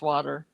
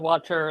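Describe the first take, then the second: First: The middle consonant sounds like a D. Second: The middle consonant sounds like a T.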